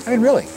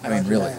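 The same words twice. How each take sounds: First: Really said high then falling hard; emphatic really. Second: Said in the usual way. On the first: Real, not acted. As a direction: land on really, pitched up and dropping. Repeats the phrase for emphasis.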